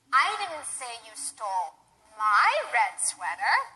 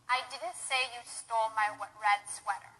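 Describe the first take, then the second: First: The word "my" carries the stress. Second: It is flat, with no word stressed. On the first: The sweater stolen belonged to someone else. "perhaps I said you stole someone else's red sweater" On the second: It is a neutral statement. "I didn't stress any words. I just said it monotone without any stress"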